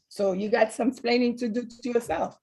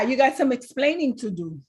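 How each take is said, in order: First: Put-on light Cuban Spanish accent; a hint of a Spanish accent, TV husband; Ricky Ricardo Spanish accent. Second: Said in the usual way. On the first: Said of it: "in his Spanish accent". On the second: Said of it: "how he said it, in his Spanish accent".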